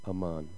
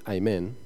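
First: It is said the Hebrew way, with a lax tongue. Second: It is said the English way. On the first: "A Hebrew pronunciation ... is more like aman" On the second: "our English version"

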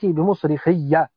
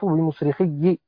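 First: The final ya carries an 'a' vowel. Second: The final ya carries an 'i' vowel. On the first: This is the common reading. "بفتح الياء" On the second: This is the reading of al-A'mash and Hamza. "بكسر الياء"

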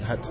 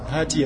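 First: The word ends on a consonant, no final vowel. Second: The word ends with a short vowel sound. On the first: The speaker stops after this word. "Si tu t'arrêtes sur le hati, tu ne diras pas hati" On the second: Another word follows without a stop. "s'il y a un mot après, tu diras hati, oustad"

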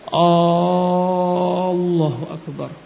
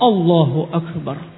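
First: The phrase is said with vowels stretched long. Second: The phrase is said directly without stretching vowels. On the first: The speaker calls it wrong. "kebanyakan dia memanjangkan" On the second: The speaker calls it right. "Langsung Allahu Akbar"

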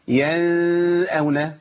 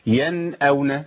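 First: The n is hidden into a nasal sound. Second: The n is pronounced clearly with normal length. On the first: The speaker calls it wrong. "ما اقولش ينأون لان كده عملت اخفاء" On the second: The speaker calls it right. "اول حكم بيقابلني هو اظهار النون"

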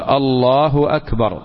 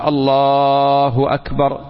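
First: The vowel on the l sound is kept short. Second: The vowel on the l sound is stretched. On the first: The speaker calls it right. "لكن السنة أن يقول الله أكبر" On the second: The speaker calls it wrong. "ولو مد اللام فالتكبير صحيح"

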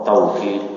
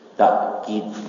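First: A w sound follows the first vowel. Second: A glottal stop follows the first vowel. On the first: "dengan waw" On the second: "dengan hamzah"

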